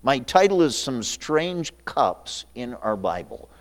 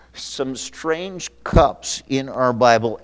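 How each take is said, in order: First: Said in the usual way. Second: Slow dictation for note-takers. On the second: Shown as a demonstration. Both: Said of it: "for you that take notes".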